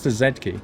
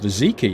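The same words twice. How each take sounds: First: The letter is said the British way, zed. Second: The letter is said the American way, zee.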